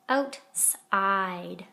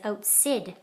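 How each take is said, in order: First: The second syllable has a long i vowel. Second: The second syllable has a short i vowel. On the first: The speaker calls it right. "Now the I says its name" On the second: The speaker calls it wrong. "there's a problem with outside. Right now it says outsid"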